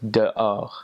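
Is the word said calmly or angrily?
calmly. It is said plainly and calmly.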